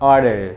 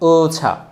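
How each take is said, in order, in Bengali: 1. এটি আমেরিকান উচ্চারণে বলা হয়েছে, t এখানে d-এর মতো। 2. এটি ব্রিটিশ উচ্চারণে বলা হয়েছে, শেষে কোনো r নেই। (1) "আমেরিকানরা সেটাকে অর্ডার" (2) "ব্রিটিশরা যেটাকে ওছা বলে"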